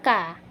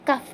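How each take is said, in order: First: The word ends on the vowel, with no f. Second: The word ends with a clear f sound. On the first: The speaker calls it wrong. "bukan ka" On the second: The speaker calls it right. "kita baca kaf"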